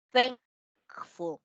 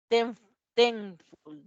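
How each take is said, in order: First: "thankful" as thaŋk-ful with a back ng; the right take of "thankful", ng from the back of the tongue; correct ng sound. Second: "ten, thankful" said slowly with a front n, like ten; slow, wrong take of "ten, thankful" with a plain n; wrong en sound. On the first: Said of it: "Decimos thank". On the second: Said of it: "Vean que no decimos ten". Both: Shown as a demonstration.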